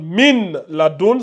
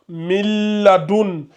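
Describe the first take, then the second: First: The n sound is pronounced clearly before l. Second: The n sound merges into a doubled l. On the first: The speaker calls it wrong. "Au lieu que ça donne Min Ladoun" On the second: The speaker calls it right. "Le Nun et le Lam vont fusionner ensemble"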